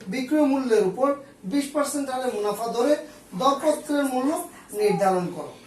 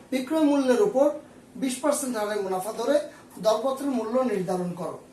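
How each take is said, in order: No difference in how they are said.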